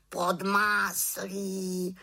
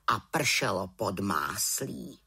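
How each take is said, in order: First: High, slow, drawn-out raven voice; raven croak. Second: Said in the usual way. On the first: A narrator's reading. Raven echoes what fell from the cloud, slow high croak. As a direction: croak it slowly in a high bird voice. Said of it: "krákal havran".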